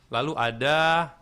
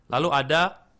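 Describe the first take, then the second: No difference in how they are said.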